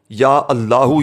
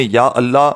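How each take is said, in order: First: या अल्लाहु with a final oo sound; full correct form. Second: या अल्लाह ending on h, no final u; wrong short form. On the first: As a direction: close या अल्लाहु on a clear -hu. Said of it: "यही पढ़ना". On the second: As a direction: say या अल्लाह without the closing oo sound. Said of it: "नहीं पढ़ना". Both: Shown as a demonstration.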